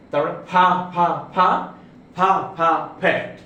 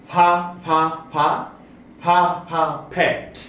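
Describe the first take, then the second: First: ফা, ফা, ফা with a breathy burst each time; drilling aspirated p. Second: ফা, ফা repeated with a strong puff of air; drilling aspirated p. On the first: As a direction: chant ফা steadily, then finish on ফ্যাট. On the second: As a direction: drill ফা over and over, then land on ফ্যাট. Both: Shown as a demonstration. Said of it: "যেমন".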